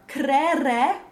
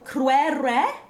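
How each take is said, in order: First: Neither syllable has a W sound. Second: Both syllables have a W sound. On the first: It sounds like everyday conversation. "where there's no W but just two S in a row" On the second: It sounds solemn and theatrical. "Both W-S after them"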